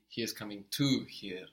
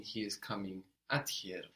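First: "to" leaned on, standing out from the rest; stress on TO. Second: Slight weight on "at"; stress on AT. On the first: Teacher correcting the meaning for the learner, stress on "to". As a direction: put the weight on "to". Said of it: "I mean he is coming to here". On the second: Teacher rejecting a reading for the learner, stress on "at". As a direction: set "at" apart before "here". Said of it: "I don't mean". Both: Shown as a demonstration.

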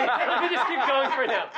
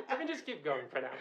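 First: Giggling through it; laughing, high. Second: Soft, settled repeat; quiet. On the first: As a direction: laugh the words out. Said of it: "repeats laughing". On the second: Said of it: "repeats quietly". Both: Real, not acted.

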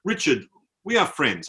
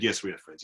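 First: Put-on mildly emotional, accented declaration; imitating emotional soldier. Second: Lower, softer retold reassurance; humouring reply. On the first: Tipsy soldier declares friendship to tourist, imitated emotion. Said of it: "he got quite emotional". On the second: Traveller humours tipsy soldier, low soft reply. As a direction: answer quietly, playing it down.

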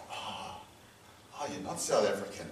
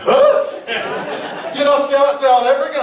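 First: Much softer, lower retold reaction; hushed, let-down acknowledgement; subdued realisation. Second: High, loud mock disbelief; loudly imitating someone who can't believe it; incredulous. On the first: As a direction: imitate someone quietly taking it in. Acted realisation he's not South African. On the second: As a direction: act out a startled double-take. Acted reply to learning he's Kiwi.

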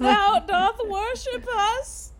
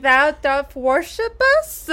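First: High, slow, drawn-out archaic question; mock archaic witch. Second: Mock archaic witch. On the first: Host repeating Winifred's line, high and slow. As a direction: stretch out the old-English words. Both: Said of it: "she's like".

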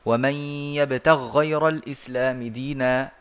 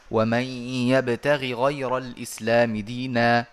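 First: Recited idgham, "يبتغ غير" run together as one word with a doubled ghayn; إدغام. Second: Recited izhar, a short i after the first ghayn of "يبتغ" before "غير"; إظهار. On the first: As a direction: merge the two ghayns of "يبتغ غير" into one held sound. (إدغام الغين في الغين في "يبتغ غير") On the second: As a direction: sound both ghayns of "يبتغ غير" separately. (إظهار الغينين في "يبتغ غير" بكسر الأولى) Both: Shown as a demonstration. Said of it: "يجوز لك الإظهار ويجوز الإدغام".

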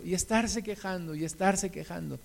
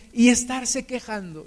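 First: Much softer, trailing away; a weary, fading echo; fading repetition. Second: Said in the usual way. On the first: Shown as a demonstration. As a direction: let the repeated complaint die out.

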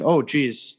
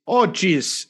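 First: Said in the usual way. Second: Hammed-up Wisconsin "Oh, geez"; Wisconsin accent. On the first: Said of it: "And I said". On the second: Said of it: "in my best Wisconsin accent".

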